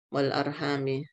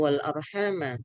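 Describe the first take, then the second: First: The word ends with an 'i' vowel. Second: The word ends with an 'a' vowel. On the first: "qira'a Hamzah bil khafdi bi kasril uh, mim" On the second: "yang satu bacaannya membaca fathah"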